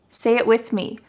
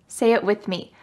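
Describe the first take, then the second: The two takes are said the same way.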